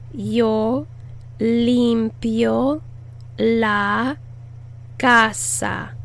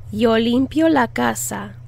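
First: Yo, limpio, la, casa with pauses; pausing word-by-word model. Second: Said in the usual way. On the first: Shown as a demonstration. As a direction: say each word apart. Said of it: "word-by-word model". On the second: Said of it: "joined back together".

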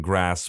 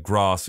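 First: "grass" with the short A of "cat". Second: "grass" as "grahss", slow and deliberate; long-A grass. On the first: Narrator shows the other variant, short-A "grass". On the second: Narrator shows one variant to listeners, long-A "grahss". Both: Shown as a demonstration. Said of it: "I deviate between something".

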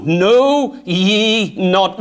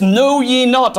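First: "Know ye not" drawn out very slowly, weight on "Know"; slow, emphatic scripture quote; slow stressed reading. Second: Said in the usual way. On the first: Shown as a demonstration. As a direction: stretch out "Know ye not" word by word. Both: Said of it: "and underline that word".

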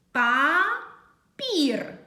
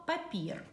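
First: Папір as two long syllables, pa... pir, with a pause; louder, slowly sound out Папір syllable by syllable; split into syllables. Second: Said in the usual way. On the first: Shown as a demonstration. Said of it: "визначаємо кількість складів". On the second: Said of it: "вимовляємо слово".

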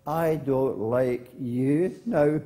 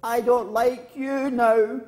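First: Slow, drawn-out echo. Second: High, loud, slow cross call; cross girl calling out. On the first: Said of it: "And the voice came back". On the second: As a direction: shout it slowly at the hills. Girl in story shouts at hills. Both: Acted.

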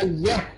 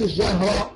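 First: الجهر with a thin, fronted vowel before هـ; light ha. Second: الجهر with a dark vowel round هـ; wrongly heavy ha. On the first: Teacher correcting the mistake, light الجهر. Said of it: "نقول ده". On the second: Teacher showing what not to say, heavy الجهر. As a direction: thicken the هـ in الجهر. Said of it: "ما نفخمش الهاء". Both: Shown as a demonstration.

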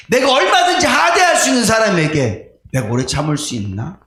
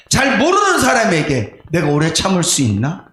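First: Raised pleading question. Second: Said in the usual way. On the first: Retold or imitated. Pastor questioning himself before God, raised.

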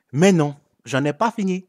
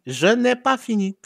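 First: Said in the usual way. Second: "pas" said high and punched; stress on pas. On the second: Shown as a demonstration. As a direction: hit "pas" hard, higher pitch.

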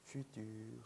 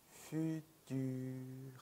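First: Said in the usual way. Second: Futur stretched syllable by syllable on a level pitch; slow model pronunciation. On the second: Shown as a demonstration. Teacher modelling for learners to repeat, futur slowly drawn out. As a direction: draw out both vowels of futur, "fuu-tuur". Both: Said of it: "따라해 주시는 거예요".

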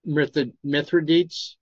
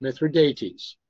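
First: Mithridates tried haltingly as "MITH-ruh-deets"; unsure pronunciation. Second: Mithridates as "mith-ruh-DAY-teez"; corrected pronunciation. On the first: Asking partner how to say it, Mithridates ending "deets". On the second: Repeating partner's correction, Mithridates as "mith-ruh-DAY-teez". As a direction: say Mithridates with four syllables, ending "DAY-teez". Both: Real, not acted. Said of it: "how do you pronounce this".

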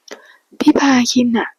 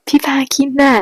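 First: High, slow pleading whine; whiny sweet voice. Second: High, wheedling plea; whiny sweet voice. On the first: A narrator's reading. Boyfriend whining sweetly to his lover on the phone. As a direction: coax him with a drawn-out whimper. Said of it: "เรียกคนรักเสียงอ่อยๆ". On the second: Shown as a demonstration. Narrator demos the boyfriend's pleading whine. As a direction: stretch พี่พาคินน่ะ into a coaxing whine. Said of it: "ฟีลแบบ".

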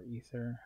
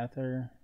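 First: "ether" said as EE-ther; long-E pronunciation. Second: "ether" with a different first vowel from EE-ther; alternate pronunciation. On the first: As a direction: start "ether" with a long EE vowel. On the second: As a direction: say "ether" without the long EE at the start. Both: Shown as a demonstration. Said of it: "however you wanna get, pronounce it".

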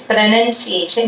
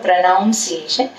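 First: "pronunciation" slowly, second syllable "nun"; correct pronunciation. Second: "pronunciation" with "noun" as second syllable; mistaken pronunciation. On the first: Teacher correcting students, "pronunciation" said slowly with short "nun". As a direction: say "pronunciation" with a short vowel, no "noun". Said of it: "പ്രൊനൗൺസിയേഷൻ എപ്പോഴും ശ്രദ്ധിക്കണം". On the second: Teacher showing students the error, "pronunciation" with an "ow" vowel. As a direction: say "pronunciation" wrongly as "pro-NOUN-ciation". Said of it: "it is not a pronunciation". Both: Shown as a demonstration.

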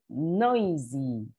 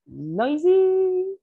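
First: Said in the usual way. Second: High, loud, drawn-out NOISY; noisy demo. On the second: Shown as a demonstration. Teacher showing the class what noisy means, noisy squeal.

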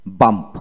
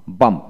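The two takes are said the same way.

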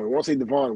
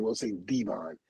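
First: "Devon" said as duh-VON, weak first vowel; rejected pronunciation. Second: "Devon" said lower and softer as DEE-von; preferred pronunciation. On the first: Contrasts rejected pronunciation with new. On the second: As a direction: say "Devon" as DEE-von, full long first vowel. Contrasts new pronunciation with rejected. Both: Retold or imitated.

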